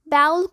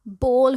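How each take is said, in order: First: The vowel sounds like 'ow'. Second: The vowel sounds like 'oh'. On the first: The speaker calls it wrong. "बाउल कुछ नहीं होता" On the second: The speaker calls it right. "बोल होता है"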